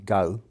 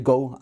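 First: It is said in a London accent. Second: It is said in a Caribbean accent. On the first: "A Londoner might say go" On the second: "a Caribbean speaker might well say go as well"

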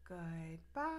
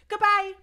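First: It is said very slowly. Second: It is said very fast.

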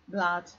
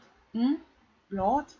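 First: The vowel is an unrounded 'uh' sound. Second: The vowel is a rounded 'o' sound. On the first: The speaker calls it right. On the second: The speaker calls it wrong.

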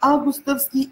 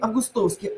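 First: The stress is on the first syllable. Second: The stress is on the third syllable. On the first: The speaker calls it right. "А или О" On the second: The speaker calls it wrong. "А или О"

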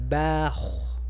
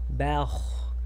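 No difference in how they are said.

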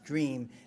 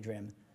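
First: The vowel is long, as in ee. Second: The vowel is short, rhyming with dim. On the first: It is the normal way to say the word. The speaker calls it right. "It's dream" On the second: It is forced to rhyme with the lines before. The speaker calls it wrong. "you would never say dream"

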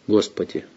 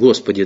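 First: The word is said in a sincere, heartfelt way. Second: The word is tossed off in a casual, offhand way. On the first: It is a sincere, intimate appeal to God. The speaker calls it right. "а вот просто «Господи». Все" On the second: It is an idle exclamation, not a real prayer. The speaker calls it wrong. "иногда мы в суе говорим «Господи», так"

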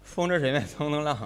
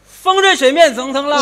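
First: It is said at a normal volume. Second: It is said very loudly, shouted.

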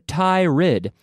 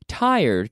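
First: The word is said the way it is spelled, with a split second syllable. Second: The word is said the natural way, rhyming with 'tire'. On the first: The speaker calls it wrong. "I hear tired because of the spelling" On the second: The speaker calls it right. "But we say tired, tired, just like a tire"

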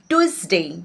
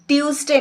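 First: The first syllable sounds like 'tui'. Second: The first syllable sounds like 'tiu'. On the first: The speaker calls it right. "টিউসডে নয় টুইসডে" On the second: The speaker calls it wrong. "টিউসডে নয়"

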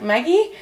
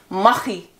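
First: The word is said in a non-Dutch way. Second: The word is said the Dutch way. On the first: The speaker calls it wrong. "he pronounces it as like Maggie" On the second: The speaker calls it right. "I promise to say it like the Dutch people say it"

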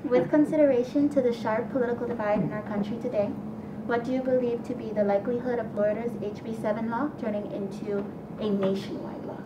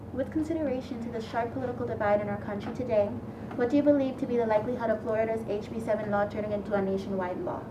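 First: It is read at a slower pace. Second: It is read at a faster pace.

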